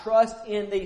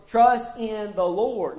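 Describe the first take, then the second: First: Said in the usual way. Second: Trust drawn out slowly and leaned on; slow stressed Trust in the Lord. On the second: Shown as a demonstration. Preacher repeating the verse to his congregation, slow with weight on Trust.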